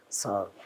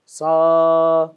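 First: Short, low, unsung "sa"; mock failed singing, much lower and softer; feeble pupil's attempt. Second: Sung, long held "sa"; sung, demonstrate the note for a beginner, sustained; singing master's drawn-out sargam note; sung teaching note. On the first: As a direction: imitate a hopeless beginner dropping the note softly. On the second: Retold or imitated. Music teacher sings note to pupil.

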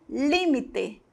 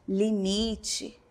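First: Límite the Spanish way, stressed on LÍ; Spanish pronunciation. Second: Limite the Portuguese way, stressed on MI; Portuguese pronunciation. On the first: Teacher shows the Spanish word, límite stressed on the first syllable. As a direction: say límite as LÍ-mi-te, with a clear final e. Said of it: "No espanhol". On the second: Teacher gives the Portuguese counterpart, limite stressed on the middle syllable. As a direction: say limite as li-MI-tchi, softly. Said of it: "No português". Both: Shown as a demonstration.

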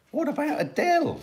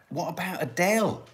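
First: High exclaimed question. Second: Said in the usual way. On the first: Shown as a demonstration.

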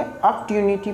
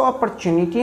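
First: अपॉर्चुनिटी said "ap-tyu-ni-ti", no r, ty for ch; recommended pronunciation. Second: अपॉर्चुनिटी said "a-par-chu-ni-ti", with r and ch; rejected pronunciation. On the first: Teacher showing learners the preferred reading, अपॉर्चुनिटी as "ap-tyuniti". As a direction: say अपॉर्चुनिटी with "p-tyu" run together. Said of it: "अपॉर्चुनिटी पढ़ेंगे". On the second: Teacher showing learners the reading to avoid, अपॉर्चुनिटी as "apar-chuniti". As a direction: say अपॉर्चुनिटी with an audible "r-chu" in the middle. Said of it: "इसको अपॉर्चुनिटी हम नहीं पढ़ेंगे".

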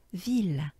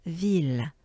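No difference in how they are said.

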